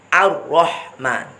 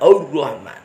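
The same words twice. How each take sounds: First: The opening a-sound is thin and light. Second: The opening a-sound is thick and heavy. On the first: The speaker calls it right. "Hamzahnya tetap harus tipis" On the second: The speaker calls it wrong. "bukan Ar-Rahman"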